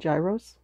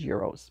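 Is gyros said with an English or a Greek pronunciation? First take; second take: English; Greek. First: The word has an English-style pronunciation. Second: The word has the Greek pronunciation. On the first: The speaker calls it wrong. "I always used to say gyros" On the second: The speaker calls it right. "the correct Greek pronunciation is gyros"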